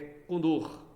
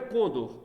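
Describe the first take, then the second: First: The stress is on the final syllable. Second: The stress is on the next-to-last syllable. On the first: The speaker calls it right. "São oxítonos" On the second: The speaker calls it wrong. "Não é Condor"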